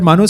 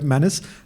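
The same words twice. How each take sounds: First: The name is said with a Marathi pronunciation. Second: The name is said with an American pronunciation. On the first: "Marathi people will call it Manus" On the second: "most of the American log will call it Manus"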